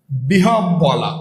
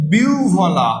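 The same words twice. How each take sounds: First: বিহব বলা said slowly as "bihob-bola"; lower, slow "bihob-bola" as learners say it; common wrong pronunciation. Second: বিহ্বলা said as "biu-bhola"; biu-bhola, no doubled b; correct pronunciation. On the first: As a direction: draw out bi-hob-bola with a doubled b. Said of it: "আপনারা যেটা বলেন". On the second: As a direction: glide through "uv" in বিহ্বলা. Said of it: "আমরা দেব উভ". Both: Shown as a demonstration.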